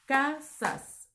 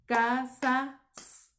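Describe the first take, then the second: First: "Casas" in two beats, ca - sas; división silábica correcta. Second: "casas" broken as ca - sa - sss; división incorrecta. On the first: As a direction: keep the s attached: "Casas" as ca, pause, sas. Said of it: "no suena armónico". ("Casas" separado en ca - sas) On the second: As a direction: detach the last s of "casas" after a pause. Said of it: "no suena armónico, rompe la". ("casas" partido en ca - sa - s) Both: Shown as a demonstration.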